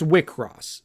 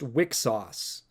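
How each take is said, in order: First: The name ends with a 'cross' sound. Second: The name ends with a 'sauce' sound. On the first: The speaker calls it right. "but no, it's Wickross" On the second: The speaker calls it wrong. "I always thought it was pronounced Wicksauce, like weak sauce"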